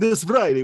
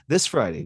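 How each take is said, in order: First: It is said in a silly, exaggerated character voice. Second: It is said in a mellow, conversational natural voice. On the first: "you read it in a very funny voice" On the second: "you go into reading it like"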